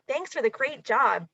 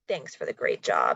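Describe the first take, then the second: First: It sounds warm and friendly. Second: It sounds curt and annoyed.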